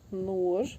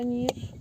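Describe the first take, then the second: First: The word is said with an 'o' vowel. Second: The word is said with an 'i' vowel. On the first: This is the local village form. "у нас кажуть" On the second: This is the standard form. "тобто ніж"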